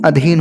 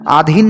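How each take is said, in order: First: The first vowel is a short 'a'. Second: The first vowel is a long 'aa'. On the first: The speaker calls it right. "अधीन होता है सही शब्द" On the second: The speaker calls it wrong. "आधीन नहीं"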